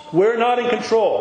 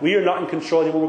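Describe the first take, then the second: First: NOT punched high and loud; "not" 重读，高而响亮地落下; stress on NOT. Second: "are" stressed, quicker; repeated faster. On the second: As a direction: hit "are" and press on fast. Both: Shown as a demonstration. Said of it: "Let me repeat that".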